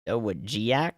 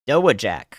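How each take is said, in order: First: The ending has two syllables, 'jee-ack'. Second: The ending is a single short syllable, 'jack'. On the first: This follows the spelling rather than local usage. "The locals don't say Giac" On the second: This is how the locals say it. "I'm going Dowajack"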